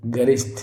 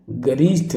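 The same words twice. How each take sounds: First: गरिष्ठ with short "rish"; quick i in गरिष्ठ; correct pronunciation shown. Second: गरिष्ठ with long "reesh"; stretched i in गरिष्ठ; wrong pronunciation shown. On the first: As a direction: say गरिष्ठ as "ga-risth". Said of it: "क्या होगा, गरिष्ठ". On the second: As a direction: say गरिष्ठ as "ga-reesth". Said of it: "गरिष्ठ नहीं भाई". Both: Shown as a demonstration.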